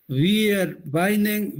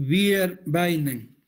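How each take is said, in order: The two takes are said the same way.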